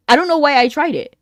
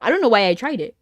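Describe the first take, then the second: First: Louder, exasperated rerun of the line; louder repeat. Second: Said in the usual way. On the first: Real, not acted. Streamer laughing at her own bad guess, louder. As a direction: say it again with more push, a bit exasperated.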